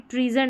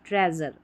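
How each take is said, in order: First: The first vowel is a long 'ee' sound. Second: The first vowel is a short 'eh' sound. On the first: The speaker calls it wrong. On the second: The speaker calls it right.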